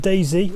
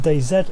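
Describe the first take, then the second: First: The name is said the American way. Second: The name is said the British way.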